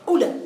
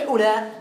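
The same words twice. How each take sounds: First: أولى said short, without the madd; the original أولى, clipped short; أولى with no long vowel; short form. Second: أولى said with the long madd vowel stretched; أولى with its long vowel held; lengthened form. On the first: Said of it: "هي أولى أصلها". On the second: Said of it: "لكن بالمد تصبح أولى". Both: Shown as a demonstration.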